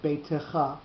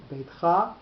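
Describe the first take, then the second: First: "beitecha" with an extra vowel after the t; skewed pronunciation. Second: "beitcha" stressed on the final cha; accent on last syllable. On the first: Teacher shows the altered form, "beitecha" in three syllables. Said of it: "sometimes we will get beitecha". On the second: Teacher shows grammatical reading, "beitcha" stressed on its last syllable. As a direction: lean on the end of "beitcha", beit-CHA. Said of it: "with the accent on the last syllable". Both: Shown as a demonstration.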